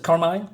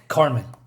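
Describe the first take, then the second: First: "Carmine" ending like "mine", questioning rise; trying a pronunciation. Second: "Carmine" ending like "mean", falling; corrected pronunciation. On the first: Reader unsure of the character's name, "Carmine" rhyming with "mine". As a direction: say "Carmine" with a long-i second syllable, unsure. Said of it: "C-, Carmine". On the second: Reader correcting the character's name, "Carmine" ending like "mean". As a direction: say "Carmine" with an ee second syllable. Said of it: "said Carmine". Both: Shown as a demonstration.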